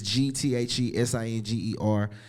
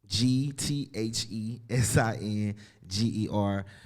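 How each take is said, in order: First: The letters are spelled out at normal speed. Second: The letters are spelled out more slowly.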